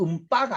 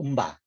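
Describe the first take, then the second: First: The b after the nasal is tense. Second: The b after the nasal is plain. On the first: The speaker calls it wrong. "음바가 아니고" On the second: The speaker calls it right. "그냥 편한 소리 나요"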